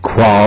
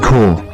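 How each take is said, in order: First: The word sounds like 'qua'. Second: The word sounds like 'core'. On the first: The speaker calls it wrong. "it's not Qua or whatever I said" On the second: The speaker calls it right. "it's pronounced Core"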